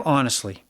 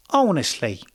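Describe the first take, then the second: First: Said in the usual way. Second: Mock British accent, pitched up then falling; playful attempt at British English. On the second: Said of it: "That's my British accent".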